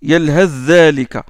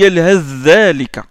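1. Le son th se fond dans le dh qui suit. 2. Le son th se fond dans le dh qui suit.

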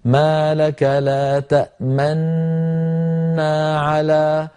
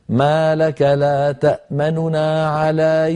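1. تندمج نونان في نون واحدة مشددة. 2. النون الأولى سريعة وأخف، ثم تأتي نون ثانية. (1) "يضم القارئ شفتيه هكذا" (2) "نخطف الحرف خطفا ونسرع عنده مع خفض لصوته قليلا"

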